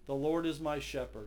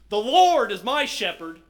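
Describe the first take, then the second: First: The word Lord gets no special emphasis. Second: The word Lord is strongly emphasized.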